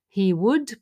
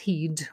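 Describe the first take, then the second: First: The two words are said separately in full. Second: The two words are merged into one contraction. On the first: The speaker calls it wrong. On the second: The speaker calls it right.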